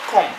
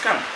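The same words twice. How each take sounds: First: The vowel is not a sharp 'ah' sound. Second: The vowel is a short sharp 'ah' sound. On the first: The speaker calls it wrong. "It's not come" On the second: The speaker calls it right. "it's come. Ah"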